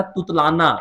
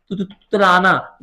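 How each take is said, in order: First: Said in the usual way. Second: तुतलाना with its first syllable तु repeated haltingly; stuttered demonstration. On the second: Shown as a demonstration. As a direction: trip on तु before getting out तुतलाना. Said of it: "लिस्प मतलब होता है तुतलाना".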